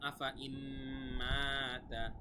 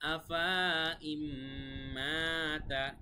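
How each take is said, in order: First: The vowel after fa is kept short. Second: The vowel after fa is drawn out long. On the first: The alif is silent and dropped. The speaker calls it right. "এই চিহ্ন থাকার কারণে আলিফ বাদ হয়ে গেছে" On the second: The alif is read as if pronounced. The speaker calls it wrong. "চিহ্নটা যদি এখানে দেওয়া না থাকতো গোল চিহ্নটা, তাহলে কিন্তু এরকম হইতো"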